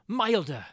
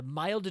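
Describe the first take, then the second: First: Loud, higher, scornful repeat of the word Milder; bitter exclamation. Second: Said in the usual way. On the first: A narrator's reading. Prisoner scoffs at his milder fate, loud bitter exclamation. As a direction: spit the word out in bitter irony.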